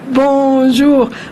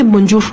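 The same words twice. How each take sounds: First: It is said with a French accent. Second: It is said with a Spanish accent. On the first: The speaker calls it right. "Se dice bonjour" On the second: The speaker calls it wrong. "no se dice bonjour, no se dice así"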